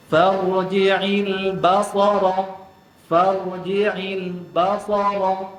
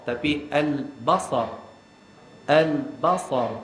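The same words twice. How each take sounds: First: Farji'il basara with the stress on ba; wrong stress. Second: Al-basar said slow and even; careful slow al-basar; correct reading. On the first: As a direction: press down on ba of basara, slow. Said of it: "Jangan baca". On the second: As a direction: read al-basar slowly as the model. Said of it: "macam tu". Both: Shown as a demonstration.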